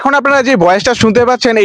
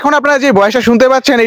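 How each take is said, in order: First: Noise reduction is at a medium setting. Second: Noise reduction is at its highest setting. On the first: "এটা level দুই এ আছে" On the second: "এটা level তিনে আছে"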